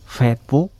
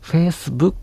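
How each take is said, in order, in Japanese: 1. この単語は「s」の音を入れずに言います。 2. この単語は「s」の音を入れて言います。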